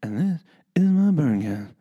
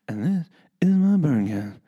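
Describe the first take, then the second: First: It is said in a put-on announcer voice. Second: It is said in a put-on announcer voice.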